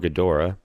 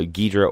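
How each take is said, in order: First: The name is said with three syllables. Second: The name is said with two syllables. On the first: "I thought it was Ghidorah" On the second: "I've always said Ghidra"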